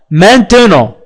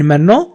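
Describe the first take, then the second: First: "maintenant" in full, man-te-non; reading pronunciation. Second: "maintenant" reduced to "men-non"; street pronunciation. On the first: Teacher shows how the word is read out, reading pronunciation. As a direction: sound the middle "te" of "maintenant". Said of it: "عندما نريد أن نقرأها". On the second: Teacher quotes how people say it in the street, street pronunciation. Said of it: "في الشارع يقولون في غالب الأحيان". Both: Shown as a demonstration.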